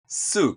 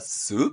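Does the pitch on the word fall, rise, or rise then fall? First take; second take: fall; rise. First: The pitch falls on the word. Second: The pitch rises on the word. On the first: "音程を下げる" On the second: "疑問だったらsoup って音程を上げる"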